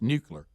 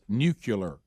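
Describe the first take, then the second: First: No extra 'u' sound comes before the ending. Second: An extra 'u' sound comes before the ending. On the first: The speaker calls it right. "and it's just nuclear" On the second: The speaker calls it wrong. "we're saying it like it has nuclear"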